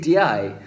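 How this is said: It is said in the Kuwaiti pronunciation. "They say di"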